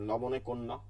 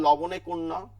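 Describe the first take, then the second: First: Said in the usual way. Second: Loud quizzing লবণে কোন ন; teacher quizzing students loudly; mock quiz question. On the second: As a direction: fire the question like an examiner. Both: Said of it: "যদি জিজ্ঞেস করা হয়".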